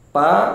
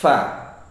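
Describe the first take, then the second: First: The first consonant is a stop with no hiss. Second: The first consonant has hissing, flowing breath. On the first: The speaker calls it wrong. "ini pengucapan huruf fa yang salah" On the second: The speaker calls it right. "Seharusnya ada desisnya"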